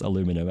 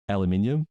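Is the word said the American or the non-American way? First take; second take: American; non-American. First: It is said the American way. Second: It is said the local, non-American way.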